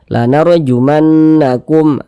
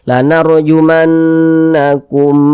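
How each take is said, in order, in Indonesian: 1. Suku kata terakhir pendek dan tidak ditahan. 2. Suku kata terakhir ditahan dan dipanjangkan. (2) "Kumnya jangan dipanjangkan, salah"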